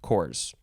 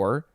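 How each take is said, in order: First: It ends with an added S sound. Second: It ends on the R sound, no S. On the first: It refers to several units. "but it would be pronounced cores" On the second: It refers to one unit. "you do not pronounce the P or the S"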